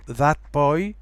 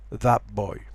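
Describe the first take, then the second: First: Put-on THAT BOY with a clear T, rising; full T. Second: Put-on THAT BOY as thap boy, falling; T becomes P. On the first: Teacher gives first of two forms, clear T in THAT. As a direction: keep the T ending THAT. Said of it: "notice that T". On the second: Teacher shows assimilated form, thap for THAT. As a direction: turn the T of THAT into a P. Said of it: "becomes a P". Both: Shown as a demonstration.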